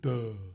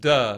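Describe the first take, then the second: First: It is said in a low, dopey, stupid-sounding voice. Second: It is said in an ordinary, plain voice. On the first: The speaker calls it right. "a real kind of a stupid duh" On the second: The speaker calls it wrong. "not just duh"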